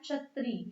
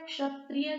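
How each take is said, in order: First: The final vowel is dropped, ending in 'i'. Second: The word ends with a 'ya' sound.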